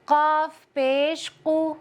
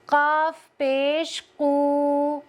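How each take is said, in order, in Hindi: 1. आख़िरी हरकत छोटी और जल्दी पढ़ी जाती है। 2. आख़िरी हरकत लंबी खींचकर पढ़ी जाती है। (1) "काफ को जल्दी कैसे पढ़ेंगे" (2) "इस तरह से खींचना गलत है"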